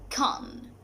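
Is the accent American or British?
British. It is said with a British accent. "according to the British one"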